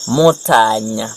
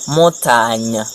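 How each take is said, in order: Both takes have the same delivery.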